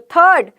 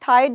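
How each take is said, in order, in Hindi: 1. स्वर 'er' ध्वनि है। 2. स्वर 'eye' डिफ़्थॉन्ग है। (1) "तो थर्ड" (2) "थाइड नहीं बोल रही हूं"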